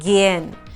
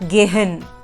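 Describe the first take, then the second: First: The middle h is silent. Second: The middle h is clearly sounded. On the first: The speaker calls it right. "is pronounced as gehen" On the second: The speaker calls it wrong. "not gehen. No. So the H here is not to be emphasized on"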